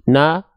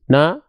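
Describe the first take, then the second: No difference in how they are said.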